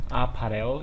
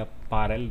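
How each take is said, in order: First: First try at reading "apparel"; "apparel" tried out one way, unsure of it; alternative pronunciation. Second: Second try at reading "apparel"; "apparel" offered as the other possible reading; alternative pronunciation. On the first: Gamer unsure how to read a menu word, trying a pronunciation. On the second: Gamer offering another reading of a menu word, alternative pronunciation. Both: Shown as a demonstration. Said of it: "δεν ξέρω πώς διαβάζεται".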